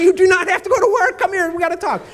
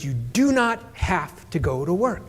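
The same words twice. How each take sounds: First: High, loud exasperated dad, retold; emphatic insistence. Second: Measured, word-by-word dad, retold; slow, deliberate insistence. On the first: Dad interrupts sulking daughter in kitchen, emphatic. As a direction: cut across the sulking, pitched way up. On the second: Dad lays out the deal to daughter, deliberate. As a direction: spell it out slowly.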